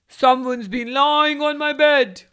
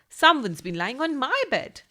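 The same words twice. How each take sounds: First: It is roared in a big, loud voice. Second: It is said in a medium-sized voice.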